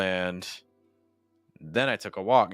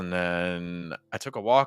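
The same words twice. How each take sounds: First: There is a pause right after 'and'. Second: There is a pause right after 'then'. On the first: "Compare that with a break on Ant" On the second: "Versus after then"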